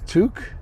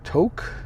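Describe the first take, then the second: First: The vowel rhymes with fluke. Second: The vowel does not rhyme with fluke. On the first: The speaker calls it right. "Fluke. So it'd be Took" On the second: The speaker calls it wrong. "I guess I'm saying it wrong"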